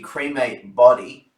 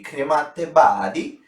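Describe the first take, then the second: First: The name is said in a plain English accent. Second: The name is said in an Italian accent.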